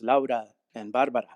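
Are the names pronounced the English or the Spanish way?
Spanish. The names are pronounced with Spanish sounds. It came across as pretentious to the listeners. The speaker calls it wrong. "And I got a look"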